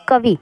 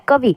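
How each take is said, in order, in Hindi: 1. अंतिम इ की मात्रा छोटी है। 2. अंतिम इ की मात्रा छोटी है।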